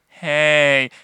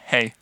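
First: It is said in a suggestive, flirtatious way. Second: It is said as a plain, friendly greeting.

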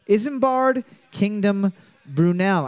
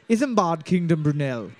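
First: It is said in the speaker's own non-English accent. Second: It is said in an English accent.

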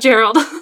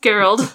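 First: The name starts with a soft G sound. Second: The name starts with a hard G sound. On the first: The speaker calls it wrong. "not Gerald" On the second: The speaker calls it right. "it's pronounced Gerald"

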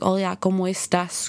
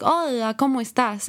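First: It has a Spain accent, sounds further back. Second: It has an Argentine accent with fluctuating pitch.

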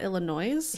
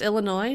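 First: The final s is pronounced. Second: The final s is silent. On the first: The speaker calls it wrong. "not Illinois" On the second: The speaker calls it right. "the S is silent"

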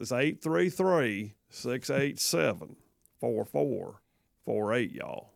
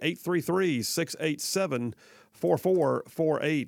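First: The number is said slowly with a twang. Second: The number is said quickly.

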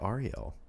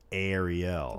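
First: The name begins with a soft A sound. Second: The name begins with a hard A sound. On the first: This is a mistaken pronunciation of the name. The speaker calls it wrong. "that's not my name" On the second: This is the name's real pronunciation. The speaker calls it right. "The hard A coming at you"

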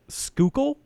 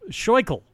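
First: The name begins with a 'sk' sound. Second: The name begins with a 'sh' sound. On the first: This is how locals say the name. "how they say it" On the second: This is a guess from the spelling. "Reading it, I want to say"

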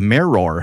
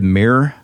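First: It is said in a careful standard way. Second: It is said in an Oklahoma accent.

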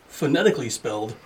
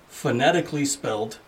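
The two takes are said the same way.

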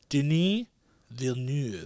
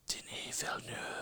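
First: It is said in a plain, ordinary voice. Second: It is said in a rough, raspy voice.

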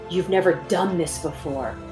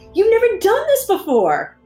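First: It sounds anxious and discouraging. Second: It sounds upbeat and encouraging. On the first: A warning that you might fail. The speaker calls it wrong. "that governor says" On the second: An exciting chance to learn. The speaker calls it right. "change the tone of that governor's voice. ... your cheerleader and going"

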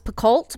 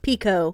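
First: The name is said the speaker's long-assumed way. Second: The name is said the author's own way. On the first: This is how the speaker always assumed it was said. The speaker calls it wrong. "which I always thought was Picoult" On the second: This is how the author says her own name. The speaker calls it right. "her name is Picoult"

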